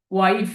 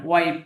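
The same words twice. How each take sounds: First: ওয়াইফ ending in an f; f sound. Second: ওয়াইপ ending on p, not f; p sound. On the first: Teacher warns learners off this form, ওয়াইফ with final f. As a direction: let the end of ওয়াইফ run into an f. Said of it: "ওয়াইফ উচ্চারণ কিন্তু করা যাবে না". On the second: Teacher gives learners the intended word, ওয়াইপ with final p. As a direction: shut the lips on the last sound of ওয়াইপ. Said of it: "ফি এর উচ্চারণটা করতে হবে". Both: Shown as a demonstration.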